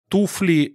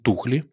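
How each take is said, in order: First: The word is said with a plain f sound. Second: The f sound is replaced by kh. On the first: This is the standard form. "«Туфли» не будет" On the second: This is the dialect form lacking the f phoneme. "у нас будут «тухли»"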